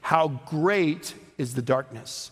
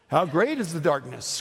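First: It is said with a statement tune. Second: It is said with a questioning tune.

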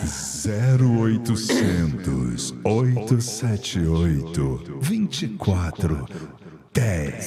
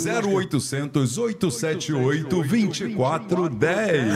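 First: It is said very slowly. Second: It is said at normal speed.

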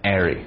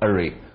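First: It is said in an American accent. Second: It is said in a British accent. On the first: "美国人会经常会读成array" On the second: "英国人会读array"

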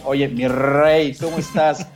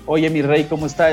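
First: The R is strongly rolled, mirrey style. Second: The R in rey is said plainly.

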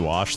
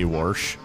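First: The word is said without an r sound. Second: The word is said with an r before sh.

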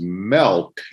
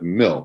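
First: The vowel is not a clear 'i' sound. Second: The vowel is a clear 'i' sound. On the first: This is how the other person says it. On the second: This is the usual way to say it.

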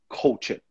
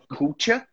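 First: The first vowel is shaded toward 'o'. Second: The first vowel is not shaded toward 'o'. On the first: The speaker calls it right. "é um pouco mais voltado para o O" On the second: The speaker calls it wrong. "Not culture"

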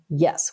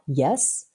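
First: The pitch falls through the word. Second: The pitch rises through the word. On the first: "a down tone, which is the fourth tone, ... which goes down" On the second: "a second tone, which goes up"

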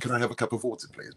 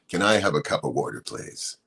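First: It is said in a typical English accent. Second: It is said in an American accent.

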